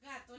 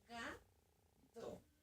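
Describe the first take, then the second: First: The word is said smoothly as one unit. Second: The word is said with a pause between syllables. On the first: This is how children are taught to read now. "como les están enseñando a ellos" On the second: This is how reading used to be taught. "uno pausa mucho cada sílaba"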